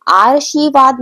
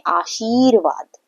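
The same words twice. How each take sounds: First: आशीर्वाद said wrongly as aar-shee-vaad; misplaced r. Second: आशीर्वाद said slowly as aa-sheer-vaad; correct r placement. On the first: Teacher showing children what not to say, r misplaced. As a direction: move the r of आशीर्वाद ahead of the sh, loudly. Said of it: "आशीर्वाद नहीं बोलते हैं". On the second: Teacher giving children the correct word, slow and careful. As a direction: put the r of आशीर्वाद after the long shee, drawn out. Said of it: "क्या बोलते हैं". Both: Shown as a demonstration.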